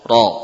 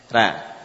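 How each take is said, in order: First: The r is heavy and full. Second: The r is light and thin. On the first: "Maka dibaca seperti huruf isti'la" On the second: "Akan sama suaranya seperti huruf bata, fa, ja"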